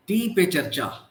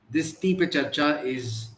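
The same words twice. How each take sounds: First: Said in the usual way. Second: "Tea" hit clearly, slower phrase; stress on tea. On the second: Shown as a demonstration. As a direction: lean on the word "Tea" in "this Tea Pe Charcha is". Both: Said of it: "I'm emphasizing on the word tea".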